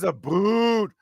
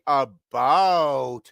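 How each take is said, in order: First: The second vowel sounds like the vowel in boot. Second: The second vowel sounds like the vowel in out. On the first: This is a stereotype of how Canadians talk. The speaker calls it wrong. "nobody says a boot" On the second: This is how Canadians actually say it. The speaker calls it right. "We say about, just like other people do"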